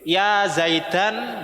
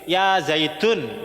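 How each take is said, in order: First: The name ends in an an sound. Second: The name ends in an un sound. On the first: "enggak boleh" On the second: "Enggak boleh ya Zaidun, enggak boleh"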